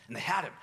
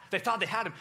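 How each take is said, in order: First: Said in the usual way. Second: Thought hit harder and higher, and louder; "thought" stressed louder and higher, correcting "had him". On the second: Shown as a demonstration. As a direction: lean on thought to correct the line.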